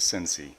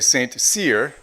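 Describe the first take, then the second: First: The name is said as one blended word. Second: The name is said as two separate words. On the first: This is how local people say the name. The speaker calls it right. "here we know it is Sensi" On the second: This is how outsiders say the name. The speaker calls it wrong. "In the States, they would say Saint Cyr"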